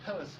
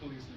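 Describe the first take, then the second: First: The stress is on the first syllable. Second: The stress is on the second syllable. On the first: "maybe the stress is on the first thing" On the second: "or was it police?"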